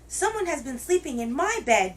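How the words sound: It is said in a wee little voice.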